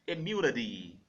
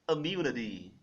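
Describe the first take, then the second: First: It is said in a General American accent. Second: It is said in a General American accent.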